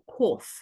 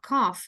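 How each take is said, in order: First: The vowel sounds like a rounded 'oh'. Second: The vowel sounds like an open 'ah'. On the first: The speaker calls it right. "а в транскрипції вказано, що тут О" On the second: The speaker calls it wrong. "я запам'ятала це слово на слух, що там А"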